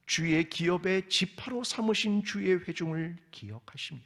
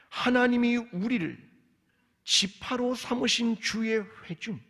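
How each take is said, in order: First: Said in the usual way. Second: 삼으신 slowed and pressed, higher and louder; emphatic repeat. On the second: Shown as a demonstration. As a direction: lean hard on 지파로 삼으신 주의 회중, slowly. (삼으신을 천천히 힘주어 강조) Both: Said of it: "두 개의 언약을 기억해 주십시오".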